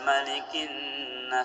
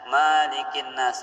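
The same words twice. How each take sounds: First: The first vowel is kept short. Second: The first vowel is held long. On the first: The king of mankind. The speaker calls it right. "sebaiknya pakai pendek" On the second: The owner of mankind. The speaker calls it wrong.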